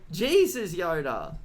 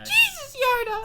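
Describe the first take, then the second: First: It is said in a lower, normal voice. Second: It is said in a higher, younger voice.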